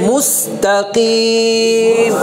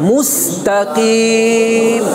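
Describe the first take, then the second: No difference in how they are said.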